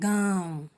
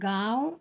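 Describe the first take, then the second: First: The vowel is said with nasal sound. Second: The vowel is said without nasal sound. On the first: The speaker calls it right. "नाक और मुंह से ध्वनि निकल रही है" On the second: The speaker calls it wrong. "गाँव कहते हैं क्या? नहीं"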